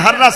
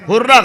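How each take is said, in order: First: The first vowel sounds like 'a'. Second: The first vowel sounds like 'u'. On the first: The speaker calls it right. "हर्रा सही तलफ्फुज है" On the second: The speaker calls it wrong. "हुर्रा गलत है"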